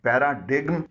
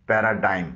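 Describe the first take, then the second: First: The 'g' sound is pronounced. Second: The 'g' sound is silent. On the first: The speaker calls it wrong. "जो गलत pronunciation है" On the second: The speaker calls it right. "इसमें जी silent है"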